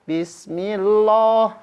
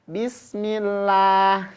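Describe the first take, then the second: First: The 'l' in 'lah' is heavy and thick. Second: The 'l' in 'lah' is light and thin. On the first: The speaker calls it wrong. "Oh, itu tebal" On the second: The speaker calls it right. "Tapi harus bismillah gitu"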